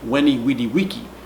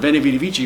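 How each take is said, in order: First: The words start with W and end with k. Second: The words start with V and end with ch. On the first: This is the classical pronunciation. "the V in classical Latin... it's pronounced like a W" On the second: This is the ecclesiastical pronunciation. "the phrase I learned"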